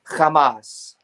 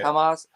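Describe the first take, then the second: First: It starts with a throaty, scraping kh sound. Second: It starts with a soft, plain h sound. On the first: The speaker calls it wrong. "they always deliberately mispronounce the groups" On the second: The speaker calls it right. "It's just spelled with an H"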